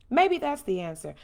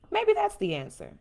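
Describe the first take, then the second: First: Said in the usual way. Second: Rhetorical suggestion. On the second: Shown as a demonstration.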